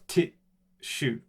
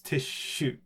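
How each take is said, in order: First: A short silent gap comes before the sh sound. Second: The sh sound is held long without any gap. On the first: The speaker calls it wrong. "It's not tissue" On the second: The speaker calls it right. "The S is pronounced all the way through"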